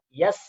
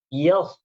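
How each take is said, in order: First: A plain, light s with spread lips. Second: A heavy, emphatic s with rounded lips. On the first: The speaker calls it wrong. "bukan yas ya. Yas itu itu huruf sin" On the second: The speaker calls it right. "jangan dikasih lebar mulut, tapi di sedikit agak bulat"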